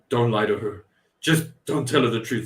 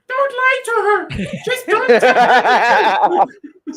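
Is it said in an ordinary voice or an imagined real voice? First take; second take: ordinary; imagined real. First: It is said in an ordinary voice. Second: It is said in Snake Eyes's imagined real voice.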